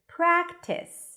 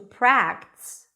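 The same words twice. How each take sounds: First: The word is said with two syllables. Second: The word is merged into one syllable. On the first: The speaker calls it right. "people expect to hear two syllables" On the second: The speaker calls it wrong. "you kind of like merged it into"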